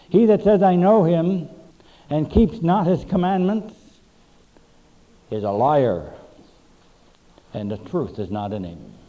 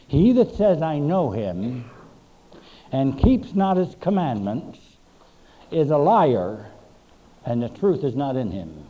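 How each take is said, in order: First: Loud, emphatic scripture reading; first reading. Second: "I know him" slowed and dropped, weighed word by word; slower second reading. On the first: Pastor reading First John to the church, loud and emphatic. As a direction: declaim each phrase to the congregation. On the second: Pastor repeating the verse so the church hears it, slow and weighty. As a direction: let "I know him" sink in slowly. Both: Shown as a demonstration. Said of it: "I think we need to hear that one again".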